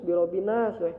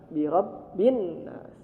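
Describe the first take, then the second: First: The n is said short, read straight through. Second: The n is pressed and held before moving on. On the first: The speaker calls it wrong. "jangan lurus bi rabbinas" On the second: The speaker calls it right. "maka ditekan"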